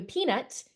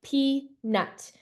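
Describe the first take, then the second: First: Said in the usual way. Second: "peanut" said as two separate beats, pea-nut; split into syllables. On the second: Shown as a demonstration. Teacher showing syllable tapping, "peanut" in two beats. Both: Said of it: "tapping the syllables".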